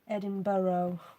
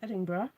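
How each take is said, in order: First: Edinburgh is said in a non-local way. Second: Edinburgh is said the local Scottish way. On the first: This is how an outsider said it. "she used to pronounce it Edinburgh" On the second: This is how locals say it. "So in Scotland, we have a city called Edinburgh"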